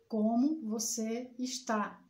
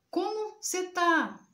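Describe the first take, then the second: First: It is said in a careful, formal way. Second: It is said in a relaxed, casual way.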